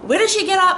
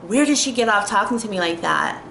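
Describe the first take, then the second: First: Sharply higher, louder outraged question; higher, louder disbelieving "did"; indignant disbelief. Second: Said in the usual way. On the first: Retold or imitated. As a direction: squeak it out in disbelief. Indignant reaction quote.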